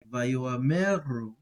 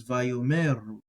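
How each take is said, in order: First: Vayoameru with the Aleph sounded, an extra a between o and m, slow; Aleph pronounced. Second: Vayomeru with the Aleph silent, o runs straight into m. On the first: Teacher sounding out Vayoameru with the Aleph voiced. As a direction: say Vayoameru slowly, giving the silent letter a sound. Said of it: "this is with it not silent". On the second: Teacher contrasting Vayomeru with the Aleph left silent. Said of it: "where it's silent". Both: Shown as a demonstration.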